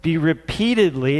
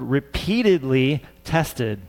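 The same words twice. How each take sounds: First: Said in the usual way. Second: "repeatedly" said slowly and leaned on; slow, deliberate weight on "repeatedly"; stress on repeatedly. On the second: Shown as a demonstration. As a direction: stretch out "repeatedly tested" to drive it home. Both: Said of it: "let me emphasize that word".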